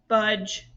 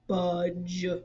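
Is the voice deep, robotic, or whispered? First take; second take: robotic; deep. First: The word is said in a flat robotic voice. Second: The word is said in a low deep voice. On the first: "say it in a robot voice" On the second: "say it in a deep voice"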